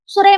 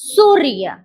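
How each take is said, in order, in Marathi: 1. पहिल्या अक्षरावर आघात नाही. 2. पहिल्या अक्षरावर आघात आहे. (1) "सुरय म्हणता? नाही" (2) "सुवर आघात येतो. जोर येतो"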